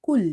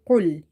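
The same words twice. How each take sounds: First: Kul with a light k at the front of the mouth; a thin, light k in kul; light kaf. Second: A full-mouth q in qul; heavy qaf. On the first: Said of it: "instead of saying qul". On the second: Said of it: "One is this heavy one". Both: Shown as a demonstration.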